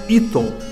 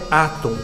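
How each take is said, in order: First: The word begins with an 'ee' vowel. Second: The word begins with an 'ah' vowel. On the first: The speaker calls it wrong. "Não seria correto pronunciar íton" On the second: The speaker calls it right. "Então é átom"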